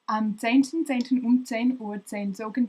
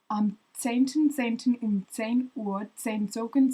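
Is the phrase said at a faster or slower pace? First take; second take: faster; slower. First: It is said at a faster pace. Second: It is said at a slower pace.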